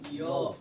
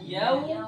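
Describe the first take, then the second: First: The vowel is a plain, pure o sound. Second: The vowel glides from a toward u. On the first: The speaker calls it wrong. "biasanya yang oh" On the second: The speaker calls it right. "harusnya ya"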